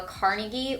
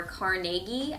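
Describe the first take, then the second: First: Carnegie stressed on the first syllable, CAR-nuh-gee; first pronunciation of Carnegie. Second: Carnegie drawn out slowly, stressed car-NAY-gee; alternative pronunciation of Carnegie. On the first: Reader names the book's author, Carnegie said CAR-nuh-gee. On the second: Reader offers another option for the author's name, Carnegie as car-NAY-gee. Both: Shown as a demonstration. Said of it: "depending on how you wanna pronounce that".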